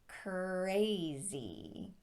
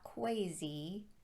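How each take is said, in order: First: The R is said as a clear R. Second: The R is said like a W. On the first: The speaker calls it right. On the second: The speaker calls it wrong.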